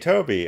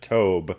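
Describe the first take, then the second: First: The name is said as two syllables. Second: The name is said as one syllable. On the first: The speaker calls it right. "but C J Toby" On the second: The speaker calls it wrong. "I always want to pronounce it Tobe"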